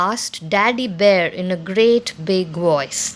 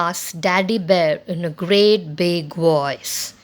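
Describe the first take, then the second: The two takes are said the same way.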